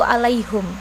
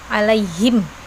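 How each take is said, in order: First: The h is followed by a 'u' vowel. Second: The h is followed by an 'i' vowel. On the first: "diganti menjadi domah" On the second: "dengan kasroh seperti biasa"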